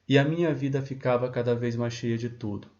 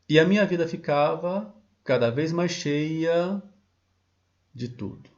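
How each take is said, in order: First: There is no pause before the final words. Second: There is a pause before the final words. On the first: The speaker calls it wrong. "Eu não poderia dizer" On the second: The speaker calls it right. "Parece uma pausa dramática"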